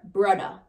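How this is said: The middle sound is a 'd'.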